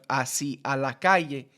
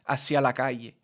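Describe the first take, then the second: First: The words are said separately, vowels kept apart. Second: The vowels merge, linking the words together.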